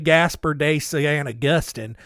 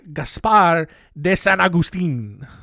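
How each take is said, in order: First: The name is said with an English accent. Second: The name is said with a Spanish accent. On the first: The speaker calls it wrong. "if I could just say Spanish names in my English accent" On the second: The speaker calls it right. "the way that, you know, Spanish people would say it"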